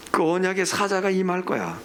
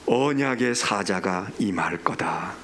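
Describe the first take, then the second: First: Said in the usual way. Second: Low, very slow scripture quotation; grave, unhurried pronouncement; solemn pronouncement. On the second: Retold or imitated. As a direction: intone it low and drawn out, like a divine decree. Quotes God's solemn pronouncement in scripture.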